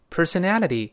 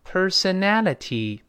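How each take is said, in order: First: Said faster, with the t voiced like d. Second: Said slowly, with a clear t sound. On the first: "读快了就发成d 会浊化，再快一点" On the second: "注意读慢了，那个ty 还能发成t，先慢慢读"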